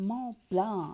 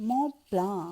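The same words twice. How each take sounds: The two takes are said the same way.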